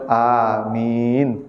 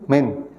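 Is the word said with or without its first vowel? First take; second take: with; without. First: The first vowel is kept. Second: The first vowel is dropped. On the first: The speaker calls it right. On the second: The speaker calls it wrong.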